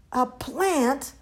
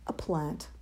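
First: Mild high yell of horror; horrified yell. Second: Low, soft, sheepish answer; meek admission. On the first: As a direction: echo it aghast, pitched up. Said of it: "yelled Mum in horror". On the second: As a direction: let it drop meekly. Chick meekly names his choice. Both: A narrator's reading.

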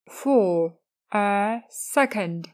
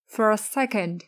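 First: For a second drawn out very slowly; slow model. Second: Said in the usual way. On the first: Shown as a demonstration. Teacher modelling the softening phrase slowly. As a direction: stretch for a second. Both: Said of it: "thêm cụm từ".

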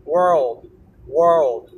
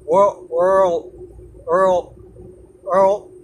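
First: "world" gliding through l to a released d; louder, lower full "world", tongue leaving the teeth at the end. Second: "world" cut off with tongue on front teeth, no d; louder "world" ending on an unreleased l; world stopped at L. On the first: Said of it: "舌を離すまでがDの発音". (最後に舌を離してDまで言い切る「world」) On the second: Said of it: "舌を前歯の後ろにつけるまでがLの発音". (舌を前歯の裏につけた所で止めて、Dなしの「world」) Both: Shown as a demonstration.

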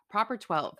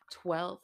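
First: "Proper twelve" said firmly as the fix; confident re-say of "Proper twelve"; corrected name. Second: Slow fumbling over "twelve"; halting, unsure "twelve"; fumbled name. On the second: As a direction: drag out "which is twelve" while losing the word. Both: Real, not acted. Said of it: "I can't even say it right".

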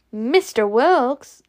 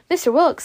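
First: Slow, drawn-out startled question; weird delivery. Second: High-pitched, startled question; stunned. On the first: Scarlet questions surprising news, oddly drawn-out delivery. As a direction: stretch the name out oddly in disbelief. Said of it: "Oh, that was said weird". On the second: Scarlet hears that the old man enlisted, stunned question. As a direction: blurt the name in disbelief. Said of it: "Scarlet was stunned". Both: A narrator's reading.

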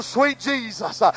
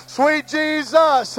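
First: Sweet Jesus, hushed, almost breathed; soft awed sweet Jesus. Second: Sweet Jesus stretched out slowly; slow lingering Sweet Jesus. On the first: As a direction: drop to a near hush in devotion. Overcome in prayer. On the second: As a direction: draw each word out in worship. Repeats slowly in prayer. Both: Real, not acted.

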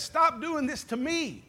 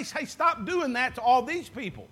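First: Slow, higher, weight landing on "me"; personal emphasis on me. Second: Light, offhand "stop doing that to all these people"; casual general rebuke. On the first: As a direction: make it personal, lean hard on "me". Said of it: "He says what? He says". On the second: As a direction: toss it off as a general complaint, nothing personal. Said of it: "he didn't say". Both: Shown as a demonstration.

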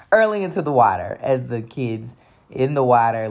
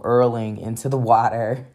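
First: Hurling into the water said through a laugh. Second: Said in the usual way. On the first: Retold or imitated. To the audience about being sick, laughing retelling.

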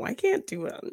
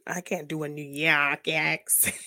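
First: Said in the usual way. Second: A put-on New York accent. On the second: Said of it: "stereotypical New York accent".

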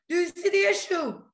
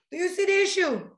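First: Higher, louder, pressing the question; incredulous emphatic repeat; exasperated repeat. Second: Emphatic question. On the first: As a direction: push it like you can't believe they miss it. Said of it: "repeated louder, higher". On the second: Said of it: "repeated for emphasis". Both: Real, not acted.

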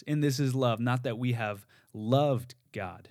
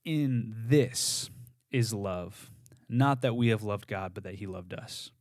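First: "this" lifted and pressed, then "loved" leaned on slowly; verse read with "this" highlighted; stress on THIS. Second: "In" leaned on, then the rest of the verse read slowly; meditative reading with "In" weighted; stress on IN. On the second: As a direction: lean into "In" to open the verse. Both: Shown as a demonstration. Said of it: "it would sound something like this".

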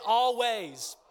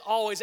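First: "Always" called out loud for the crowd to repeat; stressed Always. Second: "Always" punched out louder; stressed Always. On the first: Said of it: "Everybody say". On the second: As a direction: hit "Always" hard. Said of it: "It says". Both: Shown as a demonstration.

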